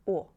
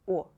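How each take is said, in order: First: The vowel is short and stays pure. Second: The vowel is short and stays pure.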